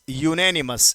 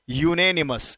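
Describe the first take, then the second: First: The word starts with a 'you' sound. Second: The word starts with a 'you' sound.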